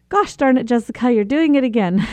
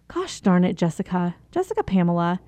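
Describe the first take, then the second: First: Self-catching scold. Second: Harsh self-scolding. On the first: Speaker to herself when running late, lightly exasperated. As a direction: catch yourself mid-habit with a rueful scold. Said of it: "and I say". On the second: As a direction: scold yourself like a stern parent. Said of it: "I start saying". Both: Retold or imitated.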